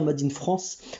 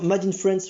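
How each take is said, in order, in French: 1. « France » est prononcé avec un accent français. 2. « France » est prononcé avec un accent anglais. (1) "je devrais dire Made in France" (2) "je dis France avec un accent anglais"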